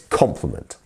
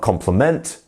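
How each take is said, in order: First: The stress falls on the first syllable. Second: The stress falls on a later syllable. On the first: The speaker calls it right. "this first syllable is the one that we stress" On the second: The speaker calls it wrong. "Not compliment"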